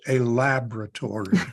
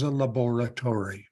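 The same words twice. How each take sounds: First: It is said in an American pronunciation. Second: It is said in a non-American pronunciation.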